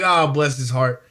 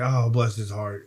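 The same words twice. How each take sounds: First: It is said in a sarcastic, condescending tone. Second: It is said in a sincere, sympathetic tone.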